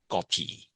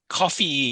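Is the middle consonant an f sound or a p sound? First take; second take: p sound; f sound. First: The middle consonant is a p sound. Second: The middle consonant is an f sound. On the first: This is how the loan word is adapted in Burmese. "but in Burmese, it'll become Kopi" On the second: This is the original form of the loan word. "is the correct pronunciation"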